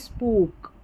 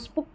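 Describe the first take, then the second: First: The vowel is long. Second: The vowel is short. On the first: The speaker calls it right. "स्पूक ये है" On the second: The speaker calls it wrong. "अब इसको स्पुक नहीं"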